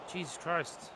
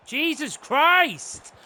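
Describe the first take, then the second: First: Low, very soft curse under the breath; quiet dismay. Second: Slow, drawn-out exclamation of frustration; exasperated outburst. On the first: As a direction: mutter it to yourself in dismay. Muttered reaction to missed chance. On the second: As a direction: stretch the curse out in exasperation. Same curse again, now exasperated. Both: Real, not acted.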